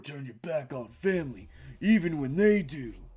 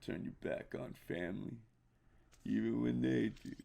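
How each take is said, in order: First: The put-on voice is a weak imitation. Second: The put-on voice is a stronger imitation. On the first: The speaker calls it wrong. "I didn't do that voice right" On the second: The speaker calls it right. "that was better"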